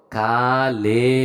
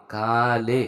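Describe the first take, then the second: First: কালে drawn out slowly, the আ long and the লে rising; slow pronunciation demo. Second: Said in the usual way. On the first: Shown as a demonstration. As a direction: stretch কালে slowly, কা long, লে lifted at the end. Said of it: "এটা আ করে উচ্চারণ করতেছি". (কালে ধীরে টেনে, আ লম্বা করে উচ্চারণ) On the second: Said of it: "তো কালে অর্থ হচ্ছে কে নাও".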